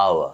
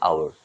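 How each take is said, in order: First: আওয়া with silent h and no final r; British-style আওয়া, r dropped; British pronunciation. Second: আওয়ার with the final r sounded; American-style আওয়ার, r kept; American pronunciation. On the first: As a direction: say আওয়া ending on an open "a". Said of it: "এটার উচ্চারণ হচ্ছে". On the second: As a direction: say আওয়ার ending on an r. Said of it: "আর আমেরিকানরা বলে". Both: Shown as a demonstration.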